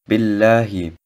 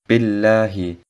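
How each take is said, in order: First: The 'lah' part is pronounced soft and light. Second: The 'lah' part is pronounced soft and light.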